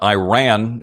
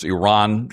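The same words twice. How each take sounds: First: "Iran" said eye-RAN; long I opening "Iran", then RAN; mispronounced Iran. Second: "Iran" said ih-RAHN; correct Iran pronunciation. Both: Shown as a demonstration. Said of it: "pronunciations have to be accurate".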